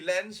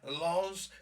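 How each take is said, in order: First: The word is said with an ordinary English accent. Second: The word is said with a French accent. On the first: The speaker calls it wrong. "You don't say lens" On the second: The speaker calls it right. "You say lens because it's French"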